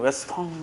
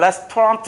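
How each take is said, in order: First: It is said softly with a nasal ending. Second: It is said with a final t sound. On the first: "불어라면 레스토랑 이렇게 되는" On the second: "영어로 하면 레스토랑트 이렇게 되지만"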